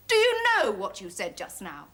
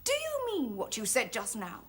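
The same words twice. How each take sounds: First: Louder, forceful challenge; indignant, imperious question; mounting outrage. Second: Controlled, measured indignation; offended but held in check; stern challenge. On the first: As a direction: hit the opening hard, demanding an answer. Challenges again, more forcefully. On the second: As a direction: demand an answer without raising the voice. Challenges his insult, first take. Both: Acted.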